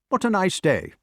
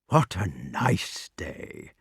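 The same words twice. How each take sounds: First: It is said in a plain, ordinary way. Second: It is said in soft, caressing tones.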